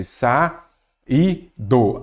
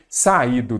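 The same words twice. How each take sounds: First: "saído" split sa-í-do with clear pauses; syllable by syllable. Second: Said in the usual way. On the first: Shown as a demonstration. Teacher showing the hiato in saído, syllable by syllable. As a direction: leave a gap after each syllable of "saído". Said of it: "quando separamos em sílabas".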